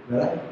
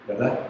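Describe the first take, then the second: The two takes are said the same way.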